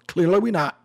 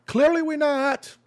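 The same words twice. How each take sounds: First: Said in the usual way. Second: High-pitched retort. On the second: Real, not acted. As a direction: voice jumps up high in protest. Rebutting a quoted accusation.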